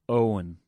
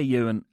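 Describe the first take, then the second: First: The name begins with an 'oh' sound. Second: The name begins with a 'you' sound. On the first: This is the name's proper pronunciation. The speaker calls it right. "no, it's Owen" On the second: This is how someone else kept mispronouncing the name. The speaker calls it wrong. "he kept calling me all week"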